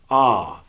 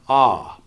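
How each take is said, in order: First: The R sound is dropped with a relaxed tongue. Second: The R sound is dropped with a relaxed tongue.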